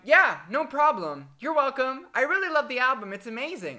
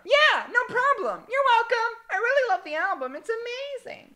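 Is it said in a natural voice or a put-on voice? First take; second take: natural voice; put-on voice. First: It is said in the speaker's natural voice. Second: It is said in a put-on character voice.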